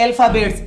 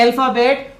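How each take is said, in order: First: अल्फाबेट्स ending in a clear ts; plural form. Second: अल्फाबेट ending on a bare t, no s; singular form. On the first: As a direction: add an audible s after the final t of अल्फाबेट्स. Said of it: "और एक होता है अल्फाबेट्स". (अल्फाबेट्स, आख़िर में ट के बाद साफ़ स) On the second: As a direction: say अल्फाबेट with a clean final t and no hiss after it. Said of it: "एक तो होता है अल्फाबेट". (अल्फाबेट, आख़िर में सिर्फ़ ट, बिना स) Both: Shown as a demonstration.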